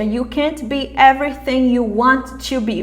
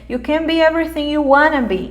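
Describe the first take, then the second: First: Want to is said in full, more slowly. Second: Want to is reduced to wanna, more quickly. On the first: The speaker calls it wrong. "Veja como trava, né?" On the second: The speaker calls it right. "bem mais rápido"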